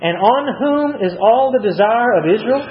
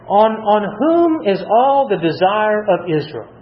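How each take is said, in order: First: Said in the usual way. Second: "whom" leaned on, the whole question read slowly; slow stress on whom. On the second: Shown as a demonstration. Preacher rereads the verse slowly so the congregation notices, stress on "whom". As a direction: linger on "whom" to make them notice. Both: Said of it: "Look at that statement".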